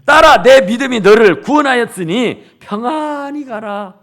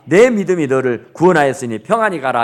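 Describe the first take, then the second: First: 딸아 called out loud at the start, the verse declared louder; proclaimed verse. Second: Said in the usual way. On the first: Acted. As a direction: boom out 딸아 and proclaim the whole verse. Preacher proclaims the key verse. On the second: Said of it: "여기 같이 해요".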